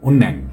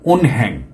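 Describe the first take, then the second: First: No h sound; the n links into it. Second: A clear h sound is heard mid-word. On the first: The speaker calls it right. "আমি উন্যাং এটা বলতেছি" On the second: The speaker calls it wrong. "উনহ্যাং এটা হ এইরকম করে বলা মানে যে ঠিক না"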